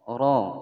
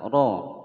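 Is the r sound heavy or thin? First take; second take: heavy; heavy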